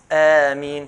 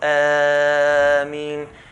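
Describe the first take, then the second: First: The long vowel is held for two counts. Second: The long vowel is held beyond two counts. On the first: The speaker calls it right. "it's Ameen, two counts" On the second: The speaker calls it wrong. "it's not Ameen"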